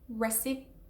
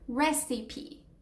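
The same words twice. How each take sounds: First: The final E is not sounded as a syllable. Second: The final E is sounded as a full syllable. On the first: The speaker calls it wrong. "It's not recipe" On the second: The speaker calls it right. "You do pronounce the P and the E towards the end as a full syllable"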